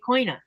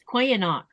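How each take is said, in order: First: The word is shortened, its ending dropped. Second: The word is said in full, all syllables. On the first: "or you can be lazy and say koina" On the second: "It's easy to say"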